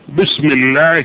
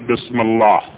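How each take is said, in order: First: The L sound is light and thin. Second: The L sound is heavy and full. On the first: The speaker calls it right. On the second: The speaker calls it wrong.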